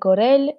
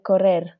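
First: The final r sounds like an l. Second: The final r is a normal r.

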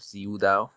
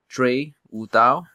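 First: The first syllable begins with a z sound. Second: The first syllable begins with a dr-like sound. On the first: The speaker calls it wrong. "instead of Zi Wu Dao" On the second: The speaker calls it right. "closer to Dre Wu Dao"

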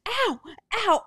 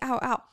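First: It is shouted at a very high pitch. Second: It is said at a normal pitch.

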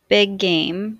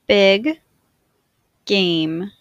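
First: The words are joined smoothly with no break. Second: The words are said with a break between them. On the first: "in a more fluid way to demonstrate linking" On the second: "I will say the words with a space in between"

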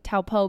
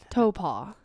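First: The name is said the way it is spelled. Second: The name is said in its researched pronunciation. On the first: This follows how the name looks written. "I'm okay with saying Taupo because that's how it looks" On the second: This is the name's proper pronunciation. "we figured out the pronunciation"

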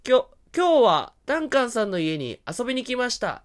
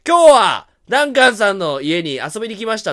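First: The voice changes pitch, not loudness. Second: The voice changes loudness, not pitch.

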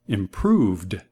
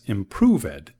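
First: The -ed ending adds no extra syllable. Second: The -ed ending is said as an extra syllable. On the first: The speaker calls it right. "Es improved" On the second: The speaker calls it wrong. "la palabra no es improved"

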